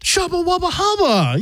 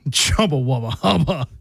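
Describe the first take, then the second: First: It is said in a supportive tone. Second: It is said in a sarcastic tone.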